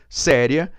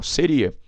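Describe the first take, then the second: First: "séria" stressed on SÉ, open E; stress on the first syllable. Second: "Seria" stressed on the middle I. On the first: Teacher shows students the accented adjective, "séria" stressed on SÉ. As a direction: say "séria" as SÉ-ria. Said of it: "Marcar aqui com acento". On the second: Teacher shows students the unaccented verb, "Seria" stressed on RI. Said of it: "Se eu não acentuar". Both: Shown as a demonstration.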